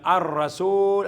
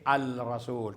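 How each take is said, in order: First: The L blends into a doubled R sound. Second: A clear L is said before the R. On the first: The speaker calls it right. "binibigkas bilang ar-rasul" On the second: The speaker calls it wrong. "hindi al-rasul"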